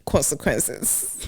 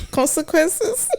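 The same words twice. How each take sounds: First: Said in the usual way. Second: CONSEQUENCES pitched very high, rising at the end; mock-ominous echo. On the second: Co-host recalls chores at home, CONSEQUENCES in high mock alarm. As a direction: squeal CONSEQUENCES as a high question.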